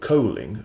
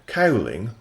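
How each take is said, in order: First: The first vowel rhymes with 'go'. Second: The first vowel rhymes with 'cow'.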